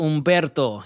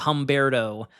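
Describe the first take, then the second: First: The R is rolled. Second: The R is plain, not rolled. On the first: The speaker calls it right. "You got to let it roll" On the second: The speaker calls it wrong. "We can't go Humberto"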